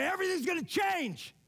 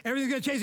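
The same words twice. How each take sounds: First: High, ringing yell from a rooftop; retold rooftop yell. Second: Said in the usual way. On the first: Friend shouting to God from the roof pinnacle, retold as a high yell. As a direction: call it out high from the top of the roof. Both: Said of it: "I yelled from the top of my".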